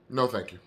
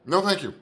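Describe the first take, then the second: First: Said in the usual way. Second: Higher-pitched, punched no thank you; emphatic refusal. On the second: Acted. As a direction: turn the offer down harder, pitch jumping up. Refusal repeated with more force.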